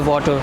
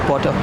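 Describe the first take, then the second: First: The whole word is said fully and clearly. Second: The second half of the word is swallowed. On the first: "We don't say water" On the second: "You eat the ha- uh, last half part of the word"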